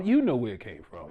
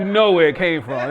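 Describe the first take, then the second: First: Said in the usual way. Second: You KNOW where it came from, louder with a laugh; laughing, louder punch; louder knowing repeat. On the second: Shown as a demonstration. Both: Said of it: "repeats the line".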